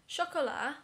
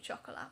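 First: "Chocolat" said the French way, shock-oh-LAH with a silent final t, punched louder and higher; French pronunciation. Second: Said in the usual way. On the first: Shown as a demonstration. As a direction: give "Chocolat" a proper French sound, shah-koh-LAH. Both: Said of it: "I'm gonna try and pronounce all the names correctly".

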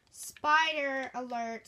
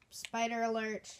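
First: Louder, slow warning call; loud alert. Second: Said in the usual way. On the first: Acted. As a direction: sound the alarm. Announcing spider loudly.

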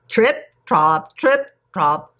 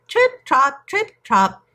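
First: Heavy hoofbeats. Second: High, punched hoof sounds; chanted hoofbeats. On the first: Great big goat crosses the bridge, heavy hoofbeat chant. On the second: Middle goat trots over the wooden bridge, high hoofbeat chant. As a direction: trot the words out high, like light hooves. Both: A narrator's reading.

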